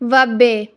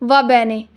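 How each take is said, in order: First: The second word is cut to one syllable. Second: Both syllables of the second word are said. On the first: This is how natives say it casually. "Real life में" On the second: This is the textbook form. "Book में हम पढ़ते हैं"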